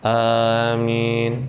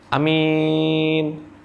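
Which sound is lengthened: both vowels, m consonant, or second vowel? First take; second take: both vowels; second vowel. First: Both vowels are somewhat long. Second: Only the second vowel is long. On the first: It means please grant it. "Depannya agak panjang, belakangnya agak panjang" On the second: It means an honest person. "kalau belakangnya saja yang panjang, depannya pendek"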